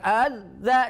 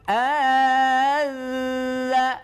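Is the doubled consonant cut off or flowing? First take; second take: cut off; flowing. First: The doubled consonant stops abruptly like a plosive. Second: The doubled consonant keeps sounding and flows on. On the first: The speaker calls it wrong. "jangan adza ... Jangan sama dengan dal" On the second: The speaker calls it right. "Kalau dal bertitik punya sifat rukhwa, maka suaranya masih mengalir"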